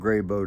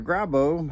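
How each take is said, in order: First: The name is said with a y sound. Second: The name is said without a y sound. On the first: This is the speaker's personal way of saying it. "I pronounce it with one" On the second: This is how the company says its own name. "We don't have a Y in our name"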